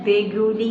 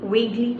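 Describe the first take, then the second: First: An extra vowel is sounded between g and l. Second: The g runs straight into l, no vowel. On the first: The speaker calls it wrong. "അതിനെ വേഗുലി എന്ന് വായിക്കണ്ട" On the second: The speaker calls it right. "It's like I വേഗ്ലി remember"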